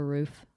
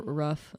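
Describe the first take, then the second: First: The vowel is long, like in 'food'. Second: The vowel is short, like in 'rough'. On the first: This is the usual form. "instead of a roof" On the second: This is how the speaker's family says it. "I say a rough"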